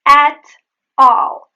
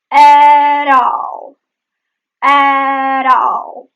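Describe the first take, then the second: First: "At all" loud, apart, with a pause after T; separated words. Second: Loud, drawn-out "At all" joined by a tap; linked flap T. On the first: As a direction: punch out "At", then "all". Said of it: "The at all becomes at all". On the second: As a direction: stretch the vowels of "At all", flap between. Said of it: "There is the flap T". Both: Shown as a demonstration.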